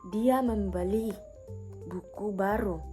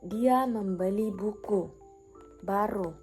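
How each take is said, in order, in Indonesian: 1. Tekanan jatuh pada kata membeli. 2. Tekanan jatuh pada kata buku. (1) "Maksudnya dia membeli, bukan meminjam" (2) "Maksudnya yang dibeli adalah buku"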